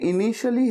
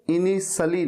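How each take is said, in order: First: "initially" with a sh sound in the middle; correct initially. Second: "initially" with s instead of sh; mispronounced initially. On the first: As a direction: say "initially" as ini-shuh-lee. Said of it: "शलगम वाला श use होगा". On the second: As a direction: say "initially" as ini-suh-lee. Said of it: "सरिता वाला स नहीं". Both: Shown as a demonstration.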